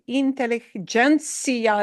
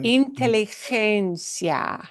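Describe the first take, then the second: First: The g sounds like an English j. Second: The g sounds like a breathy h. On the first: The speaker calls it wrong. "your brain desperately wants to say inteligencia" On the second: The speaker calls it right. "think of getting rid of this j sound"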